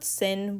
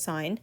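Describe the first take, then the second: First: The vowel is short, rhyming with pin. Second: The vowel is long, rhyming with pine. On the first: The speaker calls it wrong. "It's not sin" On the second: The speaker calls it right. "we pronounce it as sine"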